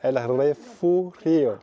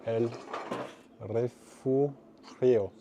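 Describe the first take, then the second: First: "El Refugio" again, very slow, in a Spanish accent and a little louder; careful second go at "El Refugio" in Spanish; retrying "El Refugio" with a Spanish accent after asking how it's said. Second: "El Refugio" drawn out very slowly, rolled Spanish r, falling at the end; slow, effortful Spanish reading of "El Refugio"; stumbling through "El Refugio" in a Spanish accent. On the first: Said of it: "Comment c'est dit". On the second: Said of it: "J'en peux plus de mon accent espagnol". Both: Shown as a demonstration.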